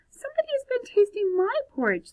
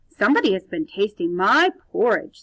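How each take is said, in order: First: It is said in a medium voice. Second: It is said in a big, deep voice.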